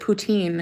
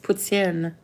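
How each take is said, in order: First: It is pronounced with an English pronunciation. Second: It is pronounced with a French pronunciation. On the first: The speaker calls it wrong. "English people pronounce it poutine" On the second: The speaker calls it right. "It's poutine. Any French person will tell you that"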